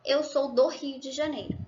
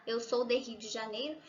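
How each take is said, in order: First: "do" acentuado, final que cae; correct form. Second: "de Rio" más suave y con subida; wrong form. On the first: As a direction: forma correcta con "do" marcado. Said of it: "tá bom?". ("Eu sou do Rio de Janeiro" firme) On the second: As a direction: forma rara, dicha bajo y dudosa. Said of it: "Fica um pouco estranho". ("Eu sou de Rio de Janeiro" como error, más suave) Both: Shown as a demonstration.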